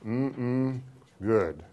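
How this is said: It ends falling, like a confident statement.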